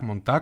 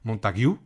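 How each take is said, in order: First: The surname is said the way a French one would be. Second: The surname is said the way an English one would be. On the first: The speaker calls it wrong. "como si fuera apellido francófono" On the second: The speaker calls it right. "Creo que se pronuncia Montague"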